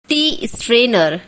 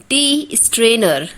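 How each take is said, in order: No difference in how they are said.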